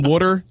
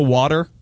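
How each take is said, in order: First: It is said with a Jersey accent. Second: It is said with a standard accent.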